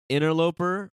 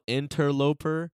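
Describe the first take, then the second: First: The word is said quickly with syllables run together. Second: Each syllable of the word is said distinctly.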